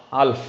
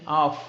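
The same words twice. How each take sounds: First: Half with the L sounded before F; wrong pronunciation. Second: Half with no L sound; silent L. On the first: Teacher warning learners off the error, half with L sounded. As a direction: say half with an audible L. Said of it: "It's not half". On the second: Teacher giving learners an example, half with silent L. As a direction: say half straight from vowel to F. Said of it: "L is a silent word". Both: Shown as a demonstration.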